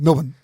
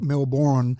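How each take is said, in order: First: The vowels are squeezed out, almost M-L-B-N. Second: Every syllable is fully pronounced. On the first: This is how Australians say it. "it would be M L B N" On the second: This is how Americans say it. "almost an American thing where you pronounce every syllable"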